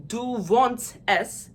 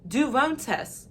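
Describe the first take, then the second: First: 'du wohnst es' slow, each word pushed out separately; hard, open vowels in 'du wohnst es'; harsh Armenian delivery. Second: 'du wohnst es' higher, gliding with rounded English oh; smooth, lilting, Anglicised 'du wohnst es'; softer learner pronunciation. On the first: Shown as a demonstration. Teacher asking how are you in Armenian, harsh demo. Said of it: "sounds much harsher than when". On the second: Retold or imitated. Teacher imitating how many people pronounce it, softened demo. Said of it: "a lot of people pronounce it like".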